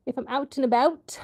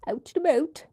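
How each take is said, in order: First: Canadian accent. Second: Laughing, exaggerated Canadian "about" as "aboot", higher; mock Canadian accent on "about", giggling. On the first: Real, not acted. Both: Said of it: "Was that a Canadian accent?".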